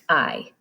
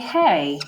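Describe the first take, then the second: First: The word sounds like "eye". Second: The word rhymes with "day". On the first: The speaker calls it right. "we say I" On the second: The speaker calls it wrong. "we don't say hey"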